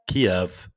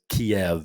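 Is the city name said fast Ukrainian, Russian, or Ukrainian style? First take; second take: Ukrainian; Russian. First: It is said with a Ukrainian-style pronunciation. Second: It is said with a Russian-style pronunciation. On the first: "The way the Ukrainians pronounce it is" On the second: "the way the Russians pronounce it is"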